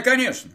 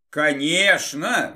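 First: Said in the usual way. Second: Exclaiming. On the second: Acted. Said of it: "воскликнула эльфийка".

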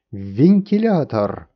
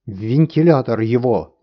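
First: Slow, loud chorus of winds repeating; winds echoing. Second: Loud shouted verdict; king shouting. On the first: Winds repeating the king's sentence together, slow loud echo. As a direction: echo the verdict like a howling crowd. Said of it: "повторили ветры". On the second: King sentencing the master to the fan, loud shout. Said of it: "закричал король". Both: A narrator's reading.

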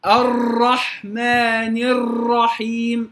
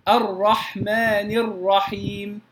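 First: الرحمن الرحيم slow, ر rolled several times; over-trilled ra. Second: الرحمن الرحيم slow, ر with one or two light taps; correct ra. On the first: Teacher shows students the mistaken over-rolled ra. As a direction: drag the ر of الرحمن into a long trill. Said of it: "يشعر أن الراء تكررت عدة مرات". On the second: Teacher models the correct ra for students, slowly. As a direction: tap the ر of الرحمن once or twice only. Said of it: "فأقول". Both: Shown as a demonstration.

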